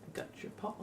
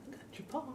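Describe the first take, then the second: First: Soft unvoiced whisper; hushed whisper to a pet. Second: Very high squeaky pet voice, soft; high soft coo for a pet, rising on paw; pet talk. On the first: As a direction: murmur it softly to the pet. Talking softly to the pet. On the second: Talking to the pet. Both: Real, not acted.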